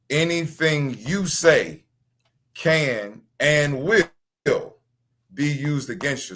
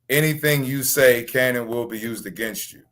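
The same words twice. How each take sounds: First: It is said slowly. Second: It is said at a normal speed.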